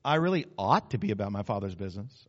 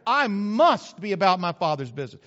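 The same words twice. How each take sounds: First: Low, dutiful admission; unemphatic, half-hearted. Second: Firm stress on "must"; emphatic. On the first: Preacher showing weak resolve, low half-hearted admission. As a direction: concede it without conviction. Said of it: "Or maybe it's like this". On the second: Preacher quoting Jesus being emphatic, "must" hit hard. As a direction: drive home "must" with full conviction. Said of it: "Because he was emphatic". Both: Shown as a demonstration.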